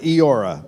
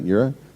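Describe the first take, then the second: First: The name begins with a plain vowel. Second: The name begins with a 'y' sound. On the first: The speaker calls it right. "it's spelled Eora" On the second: The speaker calls it wrong. "I was told it was, you say it Yura"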